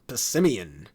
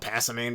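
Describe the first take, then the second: First: The ending sounds like the word 'simian'. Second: The ending does not sound like 'simian'. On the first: The speaker calls it right. "Like Simian, the type of monkey" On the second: The speaker calls it wrong. "I used to call it Passimian back in twenty sixteen, which obviously that's not how it's supposed to be pronounced"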